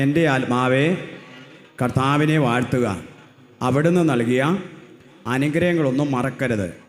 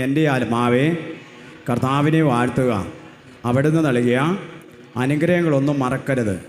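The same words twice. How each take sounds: First: Loud, slow psalm recited to the crowd; loud recitation. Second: Even louder recitation. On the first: Preacher leading the psalm, loud. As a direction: proclaim the psalm loudly. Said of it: "ഉറക്കെ പറഞ്ഞേ". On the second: Preacher urging the crowd to say it louder, full voice. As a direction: push it out louder than the last time. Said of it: "ഉറക്കെ കൂടി, ഉറ". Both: Shown as a demonstration.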